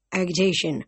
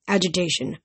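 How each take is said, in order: First: "agitation" with a hard g, ag-uh-tay-shun; misread hard g. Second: "agitation" with a soft g, aj-uh-tay-shun; corrected "agitation" with j. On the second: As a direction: fix "agitation" to a j sound. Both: Shown as a demonstration.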